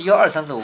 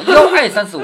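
First: 幺二三四五 with a proper curled èr; standard èr. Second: 幺爱三四五 with ài in place of èr. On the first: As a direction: count 幺二三四五, the second number as retroflex èr. (“幺二三四五”的“二”读标准èr) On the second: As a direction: count 幺爱三四五, the second number as open ài. (把“二”读成“爱”：幺爱三四五) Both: Shown as a demonstration. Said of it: "不是幺二三四五吗".

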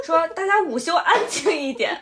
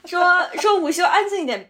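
First: Lightly stern teacher; a hint of a strict teacher. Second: Teacher repeating louder; a firmer second telling-off; louder teacher warning. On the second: Retold or imitated. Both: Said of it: "老师说".

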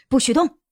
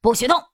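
First: Loud commanding shout. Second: Loud answering shout; shouting back the same. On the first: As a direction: bark the order as you burst in. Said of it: "举枪大喊". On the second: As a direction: yell it right back at him. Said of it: "屋中的人也同样喊出了这句话". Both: Acted.

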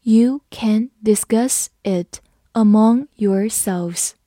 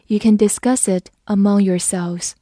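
First: Slow, careful reading for learners. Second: Said in the usual way. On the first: Shown as a demonstration. Teacher reads slowly for the class. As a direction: read it slowly, word by word. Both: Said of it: "好，我们慢读一遍。".

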